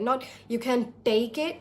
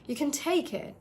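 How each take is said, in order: First: The T sound is hard, without a puff of air. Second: The T sound is soft, with a puff of air. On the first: The speaker calls it wrong. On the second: The speaker calls it right. "very soft"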